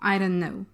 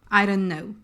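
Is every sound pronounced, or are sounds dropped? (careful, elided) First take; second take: elided; elided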